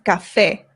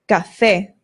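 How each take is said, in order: The two takes are said the same way.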